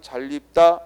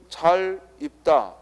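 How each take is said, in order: First: The two words are linked with an added l sound. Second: The two words are said separately without linking. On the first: "이걸 이어 발음하면" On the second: "그냥 혼자 읽을 때에는 잘 입다 이러면 되는데"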